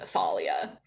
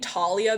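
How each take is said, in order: First: The name begins with a TH sound. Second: The name begins with a plain T sound. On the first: This is how some fans pronounce it. "fans out there who also would pronounce it Thalia" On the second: This follows the audiobook's pronunciation. "that's how the audiobook says it"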